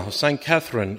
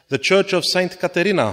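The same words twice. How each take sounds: First: "Catherine" in English, KATH-rin with th; corrected to Catherine. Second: "Caterina" as ka-te-REE-na, Italian style; Caterina said first. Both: Real, not acted.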